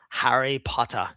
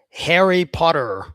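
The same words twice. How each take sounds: First: It is spoken in a British accent. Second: It is spoken in an American accent. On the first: "a British guy saying it" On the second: "Very American"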